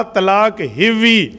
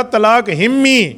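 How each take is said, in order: First: "ہوئی" said as "hivvi", drawn out slowly; Saraiki wording. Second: "ہمی" said as "himmi", very drawn out; altered Saraiki word. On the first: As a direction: stretch "ہوئی" into a slow Saraiki "hivvi", v in the middle. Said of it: "ہوئی نہیں کہا، ہمی کہا ہے". (سرائیکی میں "ہوئی" کو کھینچ کر "ہِوّی") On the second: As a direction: stretch "ہمی" slowly with a held m, "himmi". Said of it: "ہمی کہا ہے". ("ہمی" کو میم پر زور دے کر کھینچیں، "ہِمّی") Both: Retold or imitated.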